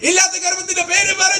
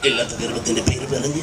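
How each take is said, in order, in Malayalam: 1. ഈ വരി ഉച്ചത്തിൽ, ആവേശത്തോടെ പറഞ്ഞിരിക്കുന്നു. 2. ഈ വരി പതിഞ്ഞ സ്വരത്തിലും സാവധാനത്തിലും പറഞ്ഞിരിക്കുന്നു. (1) "ഒന്ന് ആവേശത്തിൽ പറയടേ" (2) "പതിയെ പറഞ്ഞാ മതി"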